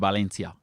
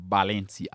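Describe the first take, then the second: First: The first sound is a V. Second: The first sound is a B.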